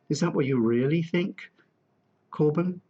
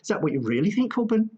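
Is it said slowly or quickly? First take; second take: slowly; quickly. First: It is said slowly with gaps between words. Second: It is said quickly without gaps between words.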